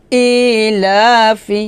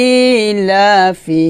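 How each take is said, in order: Both takes have the same delivery.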